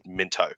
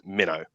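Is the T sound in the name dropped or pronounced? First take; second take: pronounced; dropped. First: The T sound in the middle is pronounced. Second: The T sound in the middle is dropped. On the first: This is how outsiders say the name. "does not pronounce it Minto" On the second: This is how locals say the name. "They pronounce it Minnow"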